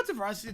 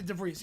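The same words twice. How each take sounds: First: DeVries said as duh-VRYZ, rhyming with "prize"; questioning his own duh-VRYZ for DeVries; mispronounced name. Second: DeVries said as duh-VREEZ, rhyming with "breeze"; corrected name. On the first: Retold or imitated. Commentator checks how he said a player's name, DeVries as duh-VRYZ. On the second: Shown as a demonstration. Commentator corrects himself on a player's name, DeVries as duh-VREEZ. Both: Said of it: "My bad on that one".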